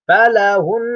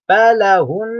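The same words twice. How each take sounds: First: The word ends on a held nasal. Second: The word ends on a held nasal.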